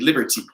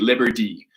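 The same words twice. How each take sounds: First: The middle consonant is a hard, clear T. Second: The middle consonant sounds like a soft D. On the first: "they will say the T harder" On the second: "it sounds like a D"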